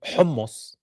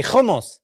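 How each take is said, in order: First: "hummus" with a soft throaty Arabic h; correct Arabic h. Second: "hummus" with a rasped kh; mispronounced h as kh. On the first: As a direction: say "hummus" with a breathed h, no rasp. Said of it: "can't even pronounce the letters". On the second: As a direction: scrape the start of "hummus" like khummus. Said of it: "They say". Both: Shown as a demonstration.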